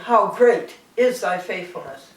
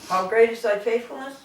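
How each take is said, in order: First: It is said as an exclamation, falling. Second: It is said as a question, rising.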